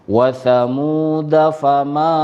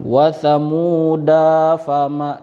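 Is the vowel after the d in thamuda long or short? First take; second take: short; long. First: The vowel after the d is kept short. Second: The vowel after the d is drawn out long. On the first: The speaker calls it right. "maka dalnya ini dibaca pendek" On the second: The speaker calls it wrong. "tidak dibaca panjang. Wasamuda fama, tidak seperti itu"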